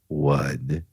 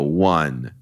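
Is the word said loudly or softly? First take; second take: softly; loudly. First: The word is said more softly. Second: The word is said at normal loudness.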